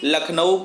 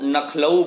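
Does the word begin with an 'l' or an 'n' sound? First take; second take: l; n. First: The word begins with an 'l' sound. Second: The word begins with an 'n' sound. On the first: This is the standard form. "लखनऊ को" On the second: This is a common nonstandard form. "नखलऊ बोलते हैं"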